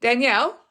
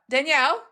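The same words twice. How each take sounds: First: Mock call of a name across the shop, a bit louder; lightly imitated loud call, rising at the end. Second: Imitating granddad's yell, higher, rising on the name; mild mock yell, pitched up. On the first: Granddad calls Danielle across the bookshop, a mild mock call. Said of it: "makes the loudest comment". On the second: Granddad yells for Danielle across the barn of books, a mock yell. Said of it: "my granddad yells out".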